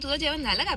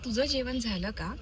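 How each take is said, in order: First: The melody goes up and down repeatedly. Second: The melody is flat and straight. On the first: "थोडं up down up down up down असं अशी थोडी tone आहे" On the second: "पुणेरी भाषेमध्ये एकदम सरळ बोलतं"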